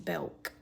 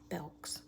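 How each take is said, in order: First: The name ends without any s sound. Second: The name ends with an added s sound. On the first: This matches the store's real name. "It just doesn't sound right" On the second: This is the local habit, though the name has no S. "I always add an S"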